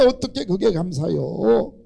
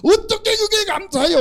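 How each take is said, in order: First: Said in the usual way. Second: 어떻게 shot up high in disbelief; incredulous high question. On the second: Shown as a demonstration. Congregation doubting, 어떻게 squealed high. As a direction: squeal 어떻게 like you can't believe it.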